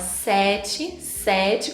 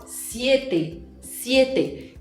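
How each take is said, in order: First: "sete" with an open E and a chi ending; Portuguese "sete", open E. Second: "siete" with a closed E; Spanish siete, closed E. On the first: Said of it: "com E aberto". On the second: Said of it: "o som do E em espanhol é sempre fechado". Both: Shown as a demonstration.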